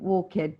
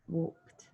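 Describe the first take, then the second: First: The ending is said as a separate syllable. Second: The ending is not a separate syllable. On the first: The speaker calls it wrong. "ed at the end never sounds ed" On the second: The speaker calls it right. "We walked"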